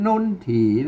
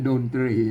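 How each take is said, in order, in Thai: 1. เริ่มด้วยเสียง 'n' แบบภาษาไทยเหนือ 2. เริ่มด้วยเสียง 'd' แบบภาษาไทยกลาง (1) "ภาษาละนาเปิ้นออกเสียงว่านนถี" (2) "ภาษาไทยเบิ่นอ่า ออกเสียงว่าดนตรี"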